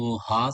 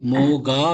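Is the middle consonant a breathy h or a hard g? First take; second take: breathy h; hard g. First: The middle consonant is a breathy h sound. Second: The middle consonant is a hard g sound. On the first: The speaker calls it right. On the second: The speaker calls it wrong.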